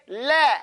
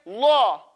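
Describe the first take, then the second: First: "La" with a front vowel, as in "lad"; slow "La", tongue kept flat and forward; light lam. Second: "La" rounded and dark, like "law"; slow, deep-mouthed "La"; heavy lam. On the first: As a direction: hold a thin, light "La". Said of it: "when it's a kasra". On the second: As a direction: hold a thick, back-vowel "La". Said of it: "When it's a dhamma or a fatha". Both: Shown as a demonstration.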